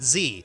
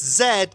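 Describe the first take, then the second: First: The letter is said as 'zee'. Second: The letter is said as 'zed'. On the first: This is the American way. The speaker calls it wrong. "not Z" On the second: The story is not set in America. The speaker calls it right. "it's Zed"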